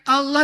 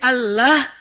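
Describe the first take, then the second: First: The L sounds heavy and dark. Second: The L sounds light and thin.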